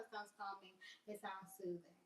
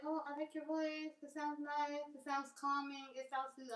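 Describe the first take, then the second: First: Quieter, puzzled echo; muted disbelieving echo. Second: High-pitched complimenting voice; admirer giving compliments. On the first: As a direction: drop down and echo it doubtfully. Echoes compliment back in disbelief. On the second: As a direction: mimic a sweet admirer. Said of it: "started getting compliments on my voice". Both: Retold or imitated.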